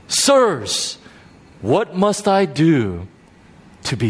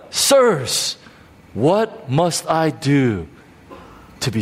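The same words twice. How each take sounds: First: Pleading jailer. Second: Slower plea, even and falling; pleading jailer repeated. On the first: A narrator's reading. Jailer to Paul, a slow fading plea. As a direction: beg slowly, voice dropping away. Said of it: "he said". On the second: Retold or imitated. Preacher savouring the jailer's plea, slow. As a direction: linger on each word, sinking. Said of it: "Think about it".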